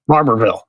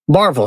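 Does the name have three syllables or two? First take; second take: three; two. First: The name is said with three full syllables. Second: The name is said with two syllables. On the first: It is read the way it is spelled. The speaker calls it wrong. "it looks like it would be pronounced Barberville" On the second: It is said the way local people say it. The speaker calls it right. "They say Barville. So they totally skip the middle syllable"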